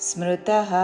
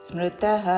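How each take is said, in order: No difference in how they are said.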